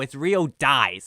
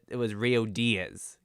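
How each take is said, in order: First: The surname is said like the English word dies. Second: The surname is said like Spanish Diaz. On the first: The speaker calls it right. "It's literally dies" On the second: The speaker calls it wrong. "Diaz as in like the Spanish"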